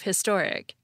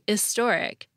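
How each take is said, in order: First: The word begins with an H sound. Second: The word begins without an H sound. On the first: This is the common standard way of saying it. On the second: This is a regional way of saying it.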